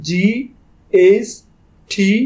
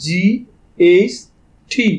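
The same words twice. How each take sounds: The two takes are said the same way.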